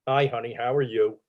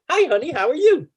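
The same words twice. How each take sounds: First: It is said in an angry tone. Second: It is said in a cheery tone.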